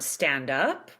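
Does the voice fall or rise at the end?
fall. The pitch falls at the end. It is a statement or command. "the statement going down"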